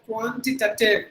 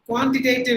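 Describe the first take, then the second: First: The A before -tive is a short ah. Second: The A before -tive is a long sound. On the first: The speaker calls it right. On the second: The speaker calls it wrong.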